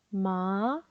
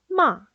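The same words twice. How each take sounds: First: The pitch rises toward the end. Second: The pitch falls sharply, short and strong. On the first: It means yam. "끝음을 올리시면 돼요" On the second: It means to scold. "짧고 굵고 세게 내리꽂으시면 돼요"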